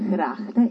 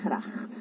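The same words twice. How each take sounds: First: The initial g sound is soft and gentle. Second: The initial g sound is strong and harsh. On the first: This is the Flemish way of saying it. "ellos dicen gracht" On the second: This is the Netherlands Dutch way of saying it. "no gracht"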